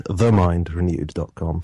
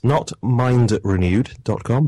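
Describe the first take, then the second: First: "the" set apart and clearly pronounced before "mind renewed"; stress on THE. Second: Said in the usual way. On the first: Shown as a demonstration. Guest correcting the web address for listeners, stressed "the". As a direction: make "the" count as part of the name.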